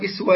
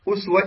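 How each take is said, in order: First: The word begins with an 'i' vowel. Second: The word begins with an 'u' vowel. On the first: "وهنالك بكسرها لغة أخرى" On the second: "أسوة بضم الهمزة طبعا"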